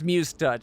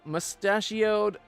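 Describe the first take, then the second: First: It is said as 'muse' plus 'touched'. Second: It is said like the word 'mustachioed'. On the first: The speaker calls it right. "I know it's Muse Touch" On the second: The speaker calls it wrong. "I'm just mispronouncing it on purpose"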